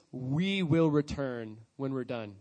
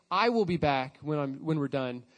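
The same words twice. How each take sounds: First: Slow, low, with "We" and "will" leaned on; stress on We and will. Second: Said in the usual way. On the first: Shown as a demonstration. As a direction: weigh "We will return" word by word. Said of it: "but he says". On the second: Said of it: "doesn't say".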